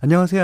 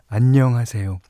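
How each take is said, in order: First: It is said quickly and mechanically. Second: It is said warmly and sincerely.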